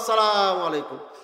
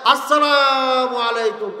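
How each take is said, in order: First: It is said in a plain, ordinary conversational manner. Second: It is barked out crisply like a military salute. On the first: It shows respect in an everyday setting. "সভাপতি সাহেবকে সালাম দিব" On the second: It shows respect in a military setting. "মিলিটারিরা তখন এইভাবে সালাম দেয় ... এভাবে বলে"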